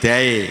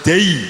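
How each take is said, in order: First: The vowel glides from a toward an open e. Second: The vowel glides toward a close i sound. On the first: The speaker calls it wrong. "Jawa seringnya miring" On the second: The speaker calls it right. "Harus dei"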